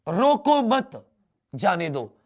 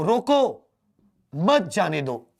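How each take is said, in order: First: The pause comes right after mat. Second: The pause comes right after roko.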